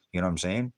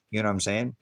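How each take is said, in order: Both takes have the same delivery.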